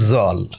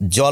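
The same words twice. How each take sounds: First: The word begins with a z sound. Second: The word begins with a j sound. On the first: "বলছে জল" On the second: "জল না বলে"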